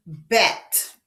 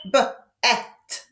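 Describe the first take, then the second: First: Said in the usual way. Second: "B-at" broken into B, then EH-T; sounded out. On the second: Shown as a demonstration. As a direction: split B-at after the first sound. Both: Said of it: "You hear that?".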